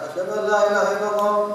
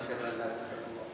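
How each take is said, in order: First: It is said loudly. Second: It is said quietly.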